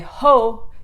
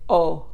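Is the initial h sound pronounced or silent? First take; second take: pronounced; silent. First: The initial h sound is pronounced. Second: The initial h sound is silent. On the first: The speaker calls it wrong. "don't say ho" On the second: The speaker calls it right. "it's silent. ... say o"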